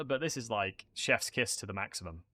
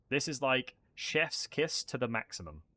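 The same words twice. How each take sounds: First: Said in the usual way. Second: Chef's kiss said slowly, savoring each word; slower, savoring. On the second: Shown as a demonstration.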